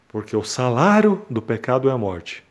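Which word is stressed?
salário. The word salário carries the main stress. The focus is that death is the wage earned.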